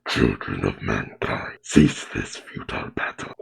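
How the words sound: It is said in a rough, gravelly monster voice. "that's gonna be too rough on my throat"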